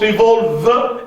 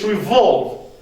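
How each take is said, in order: First: The final E is pronounced. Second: The final E is silent. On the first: The speaker calls it wrong. "not revolve" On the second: The speaker calls it right. "it's revolve"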